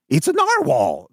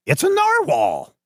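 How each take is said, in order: First: Lightly raised repeat; a quick echo of his line, slightly higher; Doctor West recalled. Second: High, slow delighted announcement; Doctor West. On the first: GM recapping Doctor West's line, only lightly voiced. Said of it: "Doctor West says". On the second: Doctor West identifying the creature, high and slow. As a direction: savor the word in a high voice. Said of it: "he's like". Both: Acted.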